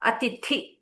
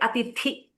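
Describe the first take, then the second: No difference in how they are said.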